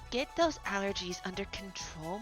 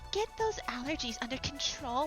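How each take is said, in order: First: It is said in a lower voice. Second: It is said in a higher voice.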